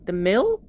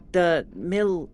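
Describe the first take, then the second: First: Doubtful second try at "mil"; unsure pronunciation. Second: Mil said short, falling, like "mill"; tentatively sounding out "mil"; first guess at pronouncing. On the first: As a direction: ask it back: "mil?" rising. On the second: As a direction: try "mil" as a clipped "mill". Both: Shown as a demonstration. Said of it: "We aren't sure how it was pronounced".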